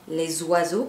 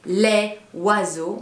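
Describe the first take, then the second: First: Les links to oiseaux with a z sound. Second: Les and oiseaux are said without a linking z. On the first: The speaker calls it right. "parce qu'il y a une liaison" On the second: The speaker calls it wrong. "On ne va pas dire les oiseaux"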